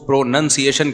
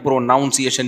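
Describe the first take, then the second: First: The second syllable sounds like 'nun'. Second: The second syllable sounds like 'noun'. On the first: The speaker calls it right. "जब इसको प्रोनंसिएशन कहेंगे ना" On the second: The speaker calls it wrong. "प्रोनाउंसिएशन नहीं कहते"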